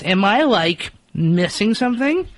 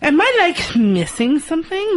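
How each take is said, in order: First: It is said in a plain voice. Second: It is said in a Valley Girl voice.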